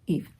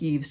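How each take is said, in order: First: The name sounds like 'Eve', with no 's'. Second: The name is read as spelled, ending with 's'. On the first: The speaker calls it right. "but it's pronounced Eve" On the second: The speaker calls it wrong. "looks like Yves to us Americans"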